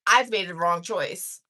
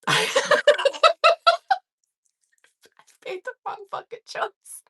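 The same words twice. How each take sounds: First: Said in the usual way. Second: High, squeezed voice through laughter; real helpless laughter; laughing realization. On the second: Real, not acted. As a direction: repeat it while cracking up, barely voiced. Repeats punchline while cracking up.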